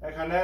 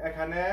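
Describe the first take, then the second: No difference in how they are said.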